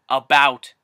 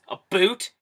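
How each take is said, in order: First: The second vowel sounds like the one in 'out'. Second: The second vowel sounds like the one in 'boot'. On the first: "I understand there's a fucking you in it" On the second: "why does everyone assume that it sounds like"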